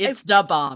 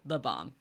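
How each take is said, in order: First: The first word begins with a d sound. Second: The first word begins with a th sound. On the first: The speaker calls it right. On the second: The speaker calls it wrong. "not the bomb"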